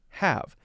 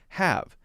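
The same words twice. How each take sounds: First: The word is said as one syllable. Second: The same.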